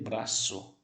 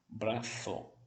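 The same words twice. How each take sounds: First: The middle consonant is a hissing s. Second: The middle consonant is a soft th. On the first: This is the pronunciation common in the Americas. "eu vou dizer braço" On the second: This is the pronunciation used in Spain. "se for na Espanha, braço, língua entre os dentes"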